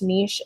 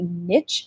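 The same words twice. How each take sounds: First: The word ends in 'eesh', not rhyming with 'riches'. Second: The word rhymes with 'itch', like 'riches'. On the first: The speaker calls it right. "I'm pretty sure that it's niche" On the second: The speaker calls it wrong. "That's why I always want to say niche"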